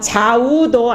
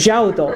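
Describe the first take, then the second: First: The first syllable has a w-glide, like 'jwa'. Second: The first syllable is a plain 'ja' without glide. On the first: The speaker calls it wrong. "좌우도 아니고" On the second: The speaker calls it right.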